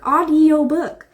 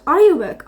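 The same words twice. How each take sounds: First: "audiobook" drawn out slowly; slow, deliberate correction. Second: Said in the usual way. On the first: Real, not acted. Vlogger correcting her own podcast slip, slow and deliberate. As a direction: stretch out "audiobook" to make it stick.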